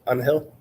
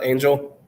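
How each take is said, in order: First: The name is pronounced the Spanish way. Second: The name is pronounced the English way. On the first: The speaker calls it right. "That's how you would say it in Spanish" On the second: The speaker calls it wrong. "not Angel"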